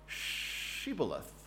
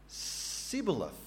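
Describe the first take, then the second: First: The word begins with an sh sound. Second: The word begins with a plain s sound. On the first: The speaker is not from the rival tribe. The speaker calls it right. "not Shibboleth" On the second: The speaker comes from the rival tribe. The speaker calls it wrong. "If he was from Ephraim, he would say, Sibboleth"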